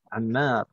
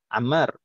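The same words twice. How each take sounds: First: The second vowel is held long. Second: The second vowel is said short, without length. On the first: This is the proper Arabic reading of the name. "yang mat tetap harus dibaca mat, harus dibaca panjang" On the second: This is the everyday local way of saying the name. "Tapi kalau dalam bahasa kita biasanya eh, nggak ada namanya panjang-pendek"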